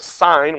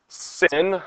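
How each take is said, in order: First: The vowel is a long I sound. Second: The vowel is a short I sound. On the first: The speaker calls it right. "We'll actually pronounce it as sine with a long I" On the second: The speaker calls it wrong. "because that's how it's written"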